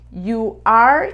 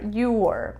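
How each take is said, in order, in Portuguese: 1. Pronunciado como duas palavras completas e separadas. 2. Pronunciado contraído em uma sílaba curta.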